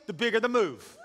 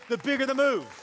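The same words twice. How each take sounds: First: Said in the usual way. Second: High, loud pulpit punchline; excited preacher, voice raised; rousing repeat. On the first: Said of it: "I'm gonna say it again". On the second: Shown as a demonstration. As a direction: land it big to excite the crowd. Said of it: "so someone gets excited".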